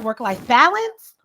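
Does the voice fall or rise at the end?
rise. The voice rises at the end of the phrase. The speaker calls it wrong. "not work life balance"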